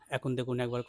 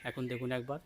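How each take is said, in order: First: The voice is heard with background sounds removed. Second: Background sounds like birds are clearly heard. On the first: "on করে দিলাম, এখন দেখুন একবার কতটা পরিষ্কার আওয়াজ হচ্ছে" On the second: "অফ করে দিলাম, এখন দেখুন একবার কেমন চারিদিকে আওয়াজ"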